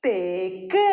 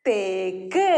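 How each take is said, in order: First: Put-on children's answer again. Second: Put-on children's answer. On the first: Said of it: "ഒന്നും കൂടി പറഞ്ഞേ". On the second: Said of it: "എല്ലാവരും ശബ്ദത്തിൽ പറഞ്ഞേ".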